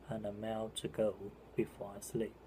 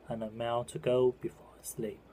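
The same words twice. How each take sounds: First: Softer closing refrain. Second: Said in the usual way. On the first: Real, not acted. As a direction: let the last line of the poem settle quietly. Closing repeat of poem's refrain.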